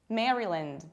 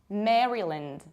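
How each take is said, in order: No difference in how they are said.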